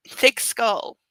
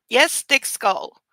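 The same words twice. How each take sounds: First: Said in the usual way. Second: Yes, thick skull drawn out slowly, skull stressed and falling; slow mocking emphasis. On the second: Shown as a demonstration.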